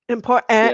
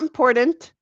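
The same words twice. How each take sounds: First: The middle T is clearly pronounced. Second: The middle T is dropped or swallowed. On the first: The speaker calls it right. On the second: The speaker calls it wrong.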